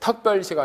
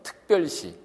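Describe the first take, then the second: First: The first vowel is said as an open 'eo'. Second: The first vowel is said as a close 'eu'. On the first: This is how a Gyeongsang speaker says it. The speaker calls it wrong. "특별시가 아니고" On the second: This is the standard Seoul pronunciation. The speaker calls it right. "이렇게 하도록"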